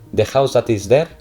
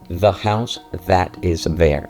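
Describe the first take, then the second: First: The th sounds are said the Spanish way. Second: The th sounds are said the English way. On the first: The speaker calls it wrong. "sonido español" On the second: The speaker calls it right. "¿Quieres sonar en inglés?"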